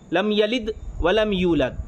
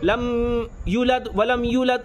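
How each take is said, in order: First: The first verb is said as yalid. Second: The first verb is said as yulad. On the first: The speaker calls it right. "ये ठीक है" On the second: The speaker calls it wrong. "इस तरीके से गलत कर देते हैं"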